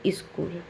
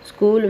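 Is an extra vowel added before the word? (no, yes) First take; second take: yes; no. First: An extra i vowel comes before the s cluster. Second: The word starts directly with the s cluster.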